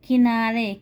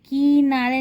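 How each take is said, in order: First: The first vowel is short and light. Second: The first vowel is long and heavy. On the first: The speaker calls it right. "हल्के से पढ़ते हैं" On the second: The speaker calls it wrong. "नहीं पढ़ेंगे"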